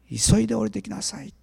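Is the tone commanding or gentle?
gentle. It is said in a gentle, compassionate tone. It is a warm, compassionate invitation. The speaker calls it right. "憐れみのある優しい呼びかけだった"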